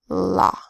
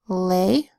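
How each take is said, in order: First: The vowel is a broad 'ah' sound. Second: The vowel is a long 'ay' sound. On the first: The speaker calls it right. "try it with the broad A sound, ah" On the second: The speaker calls it wrong. "you could try the long sound first"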